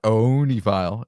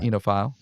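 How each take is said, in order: First: The opening O is sounded. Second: The opening O is silent. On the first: The speaker calls it wrong. "it's not onephile" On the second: The speaker calls it right. "It's just enophile. It has a useless O"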